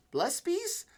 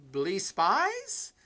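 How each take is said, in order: First: "Blespies" said as one word, BLES-pies, with a high, quick questioning rise; trying a pronunciation. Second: "Blee Spies" said as two words, BLEE then SPIES, rising like a question; trying a pronunciation. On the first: Streamer reading a chatter's name, testing it as one word. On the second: Streamer reading a chatter's name, testing it as two words. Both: Shown as a demonstration. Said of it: "Blespies or Blee Spies?".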